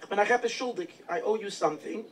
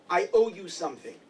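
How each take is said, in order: First: "I owe you something" drawn out slowly, each word weighed; slow emphatic repeat. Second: Said in the usual way. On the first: Retold or imitated. The Alter Rebbe repeats his debt to the town, slow and emphatic. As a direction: lean into "owe", slowing right down.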